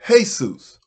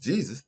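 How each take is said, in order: First: The name is said with a Spanish pronunciation. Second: The name is said with an English pronunciation. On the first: The speaker calls it right. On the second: The speaker calls it wrong. "is not pronounced Jesus"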